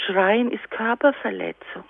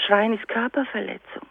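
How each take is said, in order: First: Schreien ist Körperverletzung spoken slowly, each word weighed; slow emphatic statement. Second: Said in the usual way. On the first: Shown as a demonstration. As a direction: lay it down slowly like a rule. (langsam und nachdrücklich) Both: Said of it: "dass ich sag".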